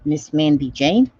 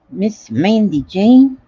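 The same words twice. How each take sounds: First: Said in the usual way. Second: Slow stretched Southern "Miss Mandy Jane?"; lightly Southern, slow and warm; Southern drawl. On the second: Pretend. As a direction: drawl the name slowly, Southern style. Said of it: "That's Southern talk".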